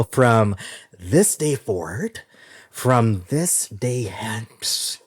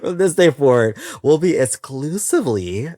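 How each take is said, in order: First: Drawn out slowly like a wedding vow; mock solemn vow. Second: Louder and higher, punched out; emphatic declaration. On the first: Announcing the new format, slow mock vow. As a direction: stretch each word, mock ceremonious. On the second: Acted. Announcing the new format to listeners, loud and proud. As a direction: proclaim it with gusto. Repeats vow after laughing.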